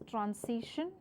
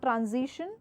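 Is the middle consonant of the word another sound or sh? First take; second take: sh; another sound. First: The middle consonant is an sh sound. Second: The middle consonant is not an sh sound. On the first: The speaker calls it right. "it's transition, sh sound" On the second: The speaker calls it wrong. "it's not transition"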